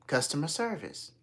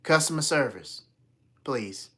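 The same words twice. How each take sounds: First: Said in the usual way. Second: Louder, then a dropped please; insistent repeat. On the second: Retold or imitated. Caller repeating to phone menu, insistent. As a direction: say it firmly for the machine.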